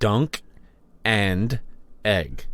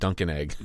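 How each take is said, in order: First: The phrase is said slowly, each word separate. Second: The phrase is said quickly, words run together. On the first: The speaker calls it right. "I got to say this slowly" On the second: The speaker calls it wrong. "it sounds like you're saying"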